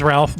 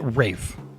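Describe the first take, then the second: First: The name has an L sound, like Ralph. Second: The name has no L and rhymes with safe. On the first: This is the name as it is spelled. "his name is Ralph" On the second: This is how the man says his own name. "he pronounces it Rafe"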